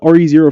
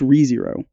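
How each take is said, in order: First: The first part is spelled out as two letters. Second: The first part is said as one single word. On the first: "I call it R E Zero Forever" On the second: "It's Re Zero"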